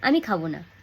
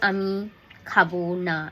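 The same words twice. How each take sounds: First: The phrase is said smoothly without an internal pause. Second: A pause breaks the phrase in the middle. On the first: The speaker calls it right. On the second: The speaker calls it wrong.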